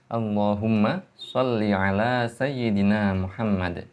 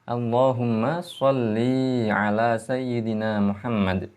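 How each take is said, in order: First: The final vowel of sholli is short. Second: The final vowel of sholli is long. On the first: It is a command to Allah. The speaker calls it right. "dengan dibaca pendek" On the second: It becomes a command addressed to a female. The speaker calls it wrong. "dengan bacaan yang salah"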